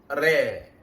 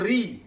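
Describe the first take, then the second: First: The vowel leans toward an 'eh' sound. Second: The vowel is a clear 'ee' sound. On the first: The speaker calls it wrong. "lidah Melayu mudah cenderung kepada imalah" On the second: The speaker calls it right. "ra di bawah bunyi ri bukan re"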